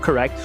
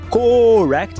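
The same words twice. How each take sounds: First: The first vowel is reduced to schwa. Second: The first vowel is a full O sound. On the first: The speaker calls it right. "com schwa" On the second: The speaker calls it wrong. "Muita gente quer falar correct, só que o O não existe no inglês"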